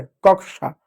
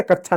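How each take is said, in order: First: कक्षा said "kak-sha"; कक्षा with a clear sh; k-sh reading. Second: कक्षा said "kachchha"; कक्षा without its k-sh cluster; mistaken chh reading. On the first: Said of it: "श होता है". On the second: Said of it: "कक्षा नहीं". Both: Shown as a demonstration.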